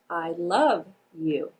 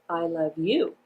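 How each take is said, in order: First: The emphasis falls on the word love. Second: The emphasis falls on the word you. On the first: "place the emphasis on the word love" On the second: "I'm going to place the emphasis on the word you"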